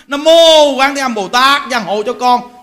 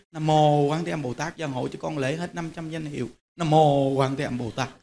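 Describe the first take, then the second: First: Louder, slower burning prayer; fervent loud Nam mô Quán Thế Âm Bồ Tát. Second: Low, soft murmured prayer, much quieter; hushed murmur of Nam mô Quán Thế Âm Bồ Tát; silent inner prayer. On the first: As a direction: call out the prayer with fiery zeal. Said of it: "là hừng hực lễ liền". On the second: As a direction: pray under your breath as if only to yourself. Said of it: "Trong tâm mình cứ thầm thầm thầm vậy". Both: Shown as a demonstration.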